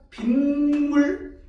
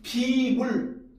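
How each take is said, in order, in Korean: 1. '빈물'이라고 발음해요. ㄴ 소리가 더해져요. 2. '비물'이라고 발음해요. ㄴ 소리가 없어요. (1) "이걸 갖다 우리 뭐라고 한다?" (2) "비물 이렇게 얘기하는 사람 있나요? 아니죠"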